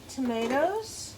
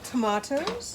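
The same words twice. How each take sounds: First: It is said with an American pronunciation. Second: It is said with a British pronunciation.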